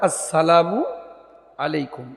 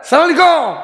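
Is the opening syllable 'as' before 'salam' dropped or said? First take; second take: said; dropped. First: The opening 'as' syllable is said. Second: The opening 'as' syllable is dropped. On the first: The speaker calls it right. "শব্দটা হবে আসসালামু আলাইকুম" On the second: The speaker calls it wrong. "কেউ বলে সালাম আলাইকুম"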